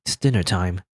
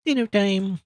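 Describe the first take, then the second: First: Said in the usual way. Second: Higher, sing-song dinner call; playful call. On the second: Acted. Player sing-songs dinner time to the monsters. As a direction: call it out like a cheery parent.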